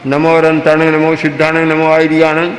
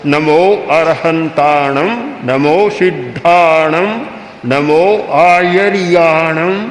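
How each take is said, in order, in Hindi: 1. यह कमज़ोर रूप से बोला गया है, बिना ज़ोर और लंबाई के। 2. यह ज़ोर से, पूरी ऊर्जा के साथ बोला गया है। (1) "कोई ज्यादा शक्ति नहीं बनेगी" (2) "ठीक ऊर्जा के साथ शक्ति के साथ हो"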